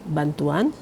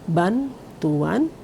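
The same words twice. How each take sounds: First: The word is said smoothly with no break. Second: The word is said with a break after ban. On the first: It means giving help. "secara lengkap tanpa jeda" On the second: It means a car tire belonging to a master. "diberi jeda"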